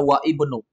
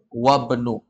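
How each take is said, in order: First: The i vowel of ibnu is pronounced separately. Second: The i vowel drops and wa links to bnu. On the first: The speaker calls it wrong. "kita nggak baca wa ibnu" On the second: The speaker calls it right. "langsung masuk wa benu"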